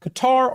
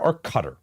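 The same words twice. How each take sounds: First: Qatar as kuh-TAR, pitched high; Qatar ending on a stressed open "tar"; second-syllable stress. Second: Qatar pronounced like "cutter"; Qatar with stress up front and a weak ending; first-syllable stress. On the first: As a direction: say Qatar with a long, strong TAR. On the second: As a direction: say Qatar as KUH-ter, dropping off. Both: Shown as a demonstration. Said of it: "Let's go with Qatar".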